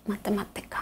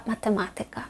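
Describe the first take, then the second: First: МатемаТИка, stress on ТИ; everyday penultimate stress. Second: МатеМАтика, stress third from end; rule-book stress. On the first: Teacher quoting what everyone usually says, penultimate stress. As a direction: land on ТИ in "математика". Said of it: "Зазвичай всі кажуть". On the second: Teacher citing what Poles never say, stress on МА. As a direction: lean on МА in "математика". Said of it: "ні разу не чула від поляка". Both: Shown as a demonstration.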